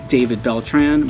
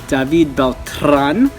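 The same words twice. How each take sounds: First: The R is not rolled, American style. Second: The R is rolled, Spanish style. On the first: The speaker calls it wrong. "I was pronouncing it the American way" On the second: The speaker calls it right. "I did the little R roll"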